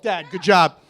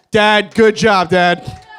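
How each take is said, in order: First: Said in the usual way. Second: Louder repeat to get Dad's attention; calling out. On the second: Acted. Son congratulating his dad, calling out louder. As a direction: call it out across the room to Dad.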